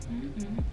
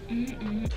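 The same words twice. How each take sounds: The two takes are said the same way.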